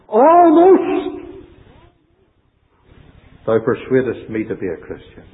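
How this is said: The stress is on "almost".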